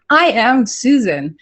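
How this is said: It is said firmly and with confidence. The speaker calls it right. "Say it with conviction"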